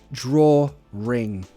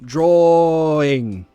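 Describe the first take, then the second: First: An r sound links the two vowels. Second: The vowels join with no r sound between. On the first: "we link it with a r" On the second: "instead of saying drawing"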